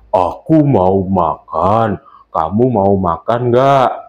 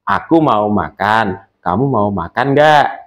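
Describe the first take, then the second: First: The voice is deep and booming, like a bass. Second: The voice is the speaker's normal natural voice. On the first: A big character, such as a father, is speaking. "kita membuat suara menjadi suara bass" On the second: The narrator is speaking. "itu suara asli yang sudah kita produksi selama ini"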